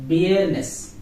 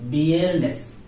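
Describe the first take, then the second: The two takes are said the same way.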